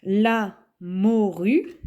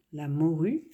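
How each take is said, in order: First: "La morue" drawn out slowly and louder; slow dictation. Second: Said in the usual way. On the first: Shown as a demonstration. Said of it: "dictating then explaining the word". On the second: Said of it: "repeating the word after explaining it".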